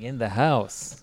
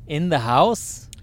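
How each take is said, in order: First: "house" stretched and falling, as a statement; clarifying restatement. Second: "house" drawn out, rising into a question; incredulous question. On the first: Co-host explaining what they meant, drawn-out clarifying statement. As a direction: restate it slowly, landing down on "house". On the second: Co-host checking where the lizards were, incredulous drawn-out question. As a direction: question it slowly, stretching "house" upward. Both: Real, not acted.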